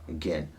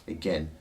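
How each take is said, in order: No difference in how they are said.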